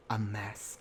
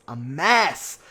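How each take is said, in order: First: Much softer, low disapproving aside; muttered dismissal; hushed verdict. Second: Drawn-out, emphatic MESS; emphatic verdict. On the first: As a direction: drop it low and quiet, under the breath. Repeated verdict, first take soft. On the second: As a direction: exclaim it, swooping up and down on MESS. Repeated verdict, second take emphatic. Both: Real, not acted.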